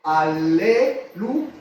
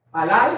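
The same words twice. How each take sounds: First: Alelu stretched very slowly, with a rising end; drawn-out alelu. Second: Alal said slowly, both a's open, stress on the last syllable; Hebrew alal. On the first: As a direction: teach alelu syllable by syllable. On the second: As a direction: spell out the Hebrew word Alal, clearly and slowly. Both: Shown as a demonstration. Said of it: "que nosotros la pronunciamos".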